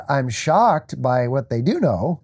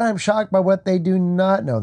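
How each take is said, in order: First: Slow, contrastive weight on "do"; stress on DO. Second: "not" set apart with firm emphasis; higher pitch, contrastive weight on "not"; stress on NOT. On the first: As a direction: lean on "do", drawn out slowly. Contrasts knowing with not knowing. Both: Real, not acted.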